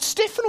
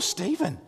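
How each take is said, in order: First: "Stephen" said with a short e and an f sound; Stephen as STEFF-en. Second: "Stephen" said with a long ee and a v sound; Stephen as STEE-ven. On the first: Son unsure of the name, "Stephen" as STEFF-en. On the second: Son offering the other option, "Stephen" as STEE-ven. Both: Retold or imitated. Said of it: "Is it Stephen or Stephen".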